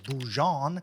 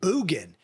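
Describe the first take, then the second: First: The middle consonant is a soft j sound. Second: The middle consonant is a hard g sound. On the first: The speaker calls it wrong. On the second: The speaker calls it right.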